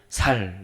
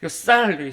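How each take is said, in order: First: The first consonant is a plain s sound. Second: The first consonant is a tense s sound. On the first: The speaker's regional dialect shows through. The speaker calls it wrong. "쌀이라고 안 하고 살, 살 이렇게 항상 이렇게 발음을 하시더라고요" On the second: This is the intended standard pronunciation. The speaker calls it right. "쌀이라고 하고 싶죠"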